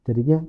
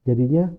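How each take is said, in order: The two takes are said the same way.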